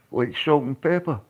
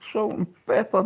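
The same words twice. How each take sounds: First: Said in the usual way. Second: Salt and pepper pitched much higher, playful; high mock repeat. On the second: To the chat, repeating his own phrase, high and mocking.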